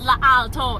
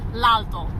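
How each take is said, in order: First: The article keeps its own vowel before alto. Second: The article loses its vowel and joins alto. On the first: The speaker calls it wrong. "It's not la alto" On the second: The speaker calls it right. "It's l'alto"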